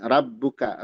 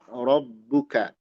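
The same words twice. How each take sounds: First: The r is pronounced thin and light. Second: The r is pronounced heavy and full. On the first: The speaker calls it wrong. "Jangan rabbuka, ra" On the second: The speaker calls it right. "Tapi ro, rabbuka"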